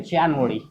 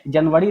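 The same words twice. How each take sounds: First: It is said the English way, as January. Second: It is said the Hindi way, as Janvari. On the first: The speaker calls it right. "बोलेंगे जनवरी" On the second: The speaker calls it wrong. "जनवरी ना बोल के"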